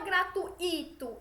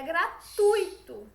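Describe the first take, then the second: First: The stress falls on the I sound. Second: The stress falls on the U sound. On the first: The speaker calls it wrong. "Não é gratuito" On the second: The speaker calls it right. "A tonicidade está nesse U"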